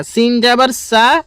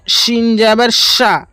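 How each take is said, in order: First: "সা" with light s; thin hissed s on "সা"; small sin. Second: "সা" as full sha; broad sh on "সিন" and "সা"; big shin. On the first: Teacher contrasting small and big sin, "সা" light saa. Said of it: "এটার হবে সামান্য পরিমাণ সা". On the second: Teacher contrasting small and big sin, "সা" as sha. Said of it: "আর বড় সিনে হচ্ছে". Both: Shown as a demonstration.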